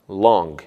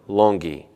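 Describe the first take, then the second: First: The word ends on its final consonant sound. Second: An extra 'ee' vowel follows the final consonant. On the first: The speaker calls it right. "e nem em palavras terminadas em consoantes" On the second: The speaker calls it wrong. "e não"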